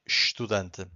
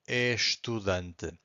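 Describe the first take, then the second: First: The first syllable is reduced to only 'sh'. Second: The first syllable is a full 'es' sound. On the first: "here we just say estudante" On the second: "Brazilian people would say it that way"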